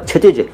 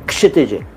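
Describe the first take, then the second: First: The name begins without a clear k sound. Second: The name begins with a clear k sound. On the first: The speaker calls it wrong. "दोनों गलत हैं" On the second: The speaker calls it right. "के से start करिए"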